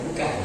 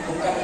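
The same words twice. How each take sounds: No difference in how they are said.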